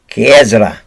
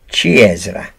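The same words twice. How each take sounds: First: The word begins with a hard k sound. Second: The word begins with a soft ch sound. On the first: The speaker is French. The speaker calls it wrong. "The French pronounce it C H with a K" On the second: The speaker is Italian. The speaker calls it right. "The Italians pronounce it"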